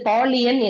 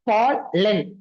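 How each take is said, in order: First: The ending has an extra ee glide: lee-an. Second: The ending is a short plain len sound. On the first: The speaker calls it wrong. "இது பாலியன் இல்ல" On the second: The speaker calls it right. "ஈயோட உச்சரிப்பு வரக்கூடாதுல்ல"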